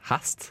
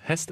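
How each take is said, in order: First: It is said with a Trøndelag dialect a vowel. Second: It is said with a standard Norwegian e vowel.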